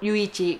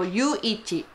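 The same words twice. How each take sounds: First: The name runs together as one blended word. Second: Yuu and ichi are said as separate parts. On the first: The speaker calls it wrong. "Hindi po Yuichi" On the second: The speaker calls it right. "yung right pronunciation pala ng pangalan ni Yuichi is Yuichi"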